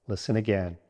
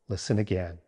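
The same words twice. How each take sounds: No difference in how they are said.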